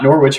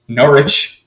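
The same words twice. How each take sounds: First: The W in the middle is pronounced. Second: The W in the middle is silent. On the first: The speaker calls it wrong. "not Norwich" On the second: The speaker calls it right. "Apparently the W silent"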